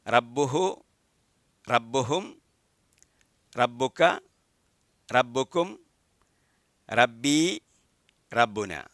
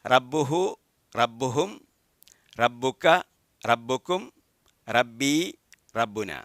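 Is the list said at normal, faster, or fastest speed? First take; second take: faster; fastest. First: It is said somewhat faster. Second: It is said faster still.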